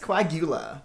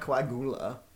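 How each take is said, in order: First: The 'u' is said with a 'y' glide. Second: The 'u' is said without a 'y' glide. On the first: The speaker calls it right. "It's coagula" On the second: The speaker calls it wrong. "he doesn't pronounce the liquid U in coagula"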